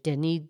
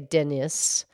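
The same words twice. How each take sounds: First: The final S is silent. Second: The final S is pronounced. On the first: "But the French pronunciation" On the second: "Denis has an S on the end. So some would say"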